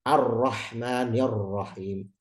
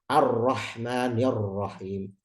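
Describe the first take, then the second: First: The R is a strong Indonesian-style rolled R. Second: The R is a strong Indonesian-style rolled R.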